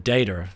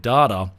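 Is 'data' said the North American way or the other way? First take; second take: North American; other way. First: It is said the North American way. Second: It is said the non-North American way.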